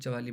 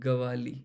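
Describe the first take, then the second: First: The name begins with a 'ch' sound. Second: The name begins with a 'g' sound. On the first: The speaker calls it wrong. "It is not चवाली बेटा" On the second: The speaker calls it right. "It is गवाली"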